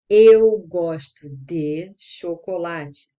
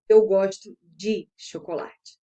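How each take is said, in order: First: Each word is said carefully and separately. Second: The words run together smoothly and fluidly. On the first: "O correto, como você tem que dizer" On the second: "no português mais fluido, na comunicação mais fluida"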